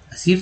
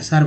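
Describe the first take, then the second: First: सिर said with a short i, as "sir", the wrong way; wrong vowel. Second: सर said with a short a, as "sar", the right way; right vowel. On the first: Teacher showing students the wrong way to say sir. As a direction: say सिर with a clear i vowel to show the mistake. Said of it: "सर बोल रहे हैं". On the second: Teacher correcting students, showing the right way to say sir. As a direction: say सर with an open a vowel. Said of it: "सिर तो नहीं बोल रहे हैं". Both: Shown as a demonstration.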